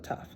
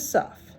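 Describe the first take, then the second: First: The letter name begins with a t sound. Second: The letter name begins with an s sound. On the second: "in the other pronunciation, it's a s"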